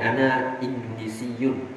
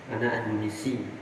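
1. Akhiran kasus -yun di akhir kata dilafalkan. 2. Kata itu berakhir dengan -i tanpa akhiran. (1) "Kalau dibaca lanjut itu bacanya ada dhammahnya kelihatan" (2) "untuk hiwar ucapan itu tidak ditampilkan"

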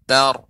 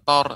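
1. Vokalnya terdengar terbuka, seperti 'a'. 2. Vokalnya terdengar bulat, seperti 'o'. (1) "akan tapi tar" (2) "jangan sampai tanya menjadi huruf o"

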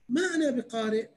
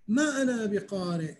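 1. تُقال بنبرة استفهامية. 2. تُقال كجملة خبرية عادية ومسطحة. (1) "يعني شنو أقرأ" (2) "يعني أنا ما أعرف أقرأ"

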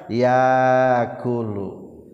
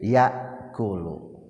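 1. Vokal a panjang menggantikan hamzah. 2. Hamzah terdengar sebelum huruf k. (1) "Patah menang di kana alifkeun" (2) "Menang diantepkeun ulah dirobah"

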